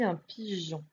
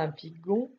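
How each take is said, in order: First: The middle consonant is a soft zh sound. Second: The middle consonant is a hard g sound. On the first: The speaker calls it right. "on dit" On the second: The speaker calls it wrong. "On ne dit pas"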